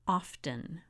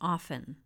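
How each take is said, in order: First: The T sound is pronounced in the word. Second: The T sound is silent in the word. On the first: The speaker calls it wrong. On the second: The speaker calls it right.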